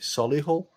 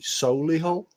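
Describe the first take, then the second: First: The name is said in an ordinary accent. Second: The name is said in a posh accent. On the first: The speaker is not a posh local resident. "but other people call it" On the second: The speaker is a posh local resident. "if you live there and you're a posh twat, you call it"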